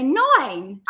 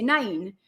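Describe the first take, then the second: First: "nine" said the Essex way, slow with a wide "ai". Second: "nine" said the Geordie way, like "neyn". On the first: Contrasting the Essex way of saying "nine". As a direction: stretch out "nine" slowly, Essex style. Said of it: "in Essex, they say nine". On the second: Explaining how Geordies pronounce "nine". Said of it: "in our accent, we'd say nine". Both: Shown as a demonstration.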